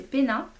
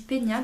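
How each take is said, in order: First: "Pena" with a plain n, "Péna"; corrected pronunciation. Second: "Pena" said the mistaken way, as "Pénia"; mistaken pronunciation. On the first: Vlogger correcting her old video, "Pena" clearly as "Péna". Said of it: "c'est Pena". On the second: Vlogger quoting her old slip, "Pena" mispronounced as "Pénia". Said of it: "J'avais dit Pena dans l'ancienne vidéo". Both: Shown as a demonstration.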